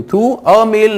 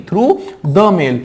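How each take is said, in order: First: Through a mail said slowly, with weight on a; ग़लत विकल्प, a पर ज़ोर; wrong option. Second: Through the mail with the stressed; सही उत्तर, the पर ज़ोर; right option. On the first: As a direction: offer "a mail" as the wrong choice. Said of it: "नहीं". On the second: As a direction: give the correct answer, leaning on the. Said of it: "The mail क्यों?". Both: Shown as a demonstration.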